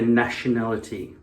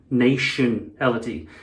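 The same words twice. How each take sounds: First: Said in the usual way. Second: "nationality" said slowly as NAY-shun-ality; altered vowel. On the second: Shown as a demonstration. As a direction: stretch "nationality", starting it like "nation". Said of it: "Their nation is called".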